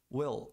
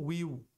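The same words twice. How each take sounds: First: The word ends with a clear L sound. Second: The word ends with a W-like sound. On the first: The speaker calls it right. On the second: The speaker calls it wrong.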